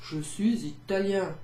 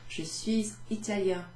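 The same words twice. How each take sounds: First: "Je suis italien" in a hammed-up Italian accent. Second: Said in the usual way. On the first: Shown as a demonstration. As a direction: roll it out like an Italian man. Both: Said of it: "I'd probably do it with an Italian accent".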